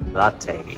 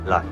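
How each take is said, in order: First: The name is said in a British accent. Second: The name is said in an American accent. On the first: "Pero pag British daw" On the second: "Pero pag American accent"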